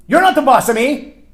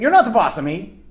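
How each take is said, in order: First: Put-on high, loud childish retort; loud mock-bratty comeback; defiant child. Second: Higher, louder bratty retort; childish defiance echoed; defiant child. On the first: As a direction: throw it like a bratty kid. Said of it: "Let me translate that for you". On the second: Retold or imitated. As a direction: snap it back like a sulky kid. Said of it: "isn't he saying basically the same thing".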